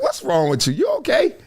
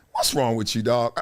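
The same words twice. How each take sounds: First: Put-on bewildered check-in; imitating a baffled onlooker. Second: Low, quiet mock concern; softly pitched-down judgmental question; judging aside. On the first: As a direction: question a weirdo, jumping up in pitch on OKAY. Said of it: "like that guy was". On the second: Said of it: "I'm like".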